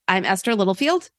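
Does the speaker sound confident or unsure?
unsure. The self-introduction sounds unsure. The speaker calls it wrong. "it is like"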